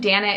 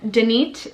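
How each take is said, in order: First: It is said the American way, as spelled. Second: It is said the original Hebrew way. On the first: This is how it would be said in the States. The speaker calls it wrong. "I don't think Danit is cute at all" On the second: This is how the name is meant to be said. The speaker calls it right. "but Danit is is really cute"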